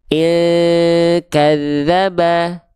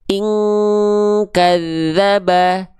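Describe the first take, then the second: First: The nasal hum before the k is weak. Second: The nasal hum before the k is strong. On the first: The speaker calls it wrong. "Yang kurang sempurna itu dia yang eh, apa kurang kuat dengungannya" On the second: The speaker calls it right. "kuatkan dengungannya"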